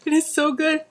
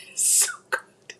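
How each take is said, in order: First: High delighted squeal with laugh; delighted exclaim. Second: Slow whisper, savoring. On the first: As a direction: burst out high and giddy. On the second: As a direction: breathe it out slowly, savoring. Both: Real, not acted. Tasting, whispered then exclaimed.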